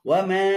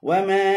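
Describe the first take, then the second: No difference in how they are said.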